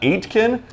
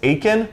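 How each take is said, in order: First: A T sound is pronounced in the middle. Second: No T sound is pronounced in the middle. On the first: The speaker calls it wrong. "it's not Aitken" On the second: The speaker calls it right. "With no T"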